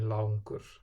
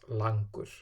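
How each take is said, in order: First: The first vowel glides like "au". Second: The first vowel is a plain, unchanging "a". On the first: The speaker calls it right. "So A becomes au, like in langur" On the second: The speaker calls it wrong. "and not langur"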